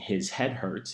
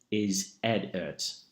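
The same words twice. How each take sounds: First: The H sounds are pronounced. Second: The H sounds are dropped. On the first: "instead of saying" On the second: "dropping the H in a word"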